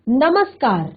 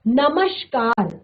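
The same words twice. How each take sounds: First: The middle consonant is an s sound. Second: The middle consonant is an sh sound. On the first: The speaker calls it right. "सही शब्द है नमस्कार" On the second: The speaker calls it wrong. "शेर वाला श, ये आपका गलत वर्ड है।"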